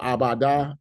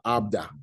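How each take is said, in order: First: A short vowel separates the b and d. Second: The b and d run straight together. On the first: "you would actually keep it open" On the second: "one may say "ab,""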